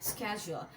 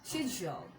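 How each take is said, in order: First: It starts with a 'sk' sound, American style. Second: It starts with a 'sh' sound, British style. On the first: "American স্টাইলে" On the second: "British বলতে চাও"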